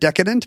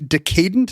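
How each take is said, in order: First: The start sounds like the word 'deck'. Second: The start sounds like the word 'decay'. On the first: This is the newer way that caught on. "instead of decadent ... making us say decadent wrong" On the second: This is the older way of saying it. "it used to be decadent ... it's the same root as decay"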